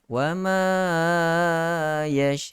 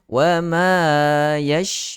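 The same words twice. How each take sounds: First: The nasal sound is stretched out far too long. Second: The nasal sound is held for a moderate length. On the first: The speaker calls it wrong. "itu berlebihan" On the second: The speaker calls it right. "dua harakat dengan berlanjutan, berleret"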